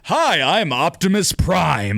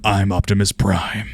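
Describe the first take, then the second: First: It is said in an over-the-top heroic voice. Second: It is said in a rich, deep, gentle voice.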